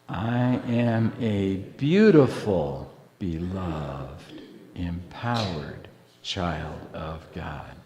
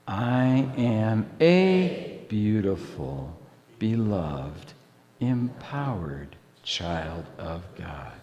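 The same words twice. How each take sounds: First: The stress is on "beautiful". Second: The stress is on "a".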